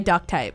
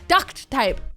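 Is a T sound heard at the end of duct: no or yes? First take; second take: no; yes. First: Duct is said without a final T sound. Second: Duct is said with a clear final T sound. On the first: "I definitely say duct tape" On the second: "Adding the T to the end sounds weird"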